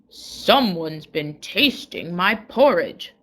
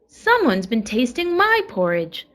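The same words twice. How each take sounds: First: It is said in a great big voice. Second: It is said in a middle-sized voice.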